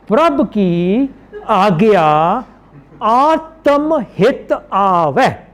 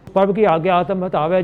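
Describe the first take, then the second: First: Each word is pronounced separately and clearly. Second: The words are slurred and run together. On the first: It is recited so the meaning comes through. The speaker calls it right. "When you read Bani to understand" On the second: It is recited by rote without understanding. The speaker calls it wrong. "When you read Bani in a nonsensical way"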